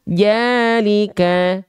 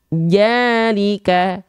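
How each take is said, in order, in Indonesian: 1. Kata ini diawali dengan bunyi 'j'. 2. Kata ini diawali dengan bunyi 'j'.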